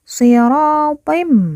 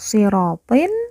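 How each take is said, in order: First: The word ends with a held, nasal m sound. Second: The word ends with a plain n sound. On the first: The speaker calls it right. "tetapi dibaca sirotim" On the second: The speaker calls it wrong. "Bukan dibaca sirotin"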